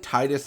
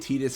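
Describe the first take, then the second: First: The first syllable sounds like the word 'tide'. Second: The first syllable does not sound like 'tide'. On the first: It matches the game's water theme. "makes the most sense ... Why is it not called Tide for tides?" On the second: It is the official pronunciation. "that's what they just say now ... lore-wise, that is the correct pronunciation"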